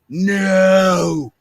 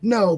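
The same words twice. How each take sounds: First: The word is drawn out slowly and dramatically. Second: The word is said quickly and plainly.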